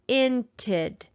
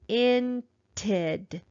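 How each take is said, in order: First: It is said a little faster. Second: It is sounded out slowly.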